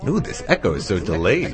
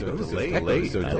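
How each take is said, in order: First: Said in the usual way. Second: Quick, fainter echo repeat of the line; a delayed echo of the line. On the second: Real, not acted.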